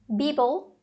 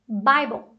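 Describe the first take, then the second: First: "Bible" as BEE-bol, offered as an option; wrong "bi" vowel. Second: "Bible" as BAI-bol, falling; correct AI vowel. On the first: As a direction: say "Bible" with a long EE. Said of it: "Então não é bi". ("Bible" lido errado, BÍ-bol) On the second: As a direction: say "Bible" with an AI diphthong. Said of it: "tem um A I ali depois do B". ("Bible" com AI, BÁI-bol) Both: Shown as a demonstration.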